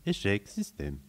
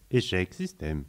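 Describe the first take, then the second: First: Softer, dying machine voice; robotic error message, fading. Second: Flat machine voice; robotic error message. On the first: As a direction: let the computer run down. (message d'erreur qui s'éteint) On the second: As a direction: read it like a crashing computer. (message d'erreur robotique) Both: Acted. System failure message.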